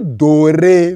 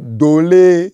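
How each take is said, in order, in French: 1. La deuxième syllabe commence par un son R. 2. La deuxième syllabe commence par un son L. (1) "mais je te dis doré" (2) "il dit dolé"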